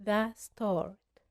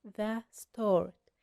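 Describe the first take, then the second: No difference in how they are said.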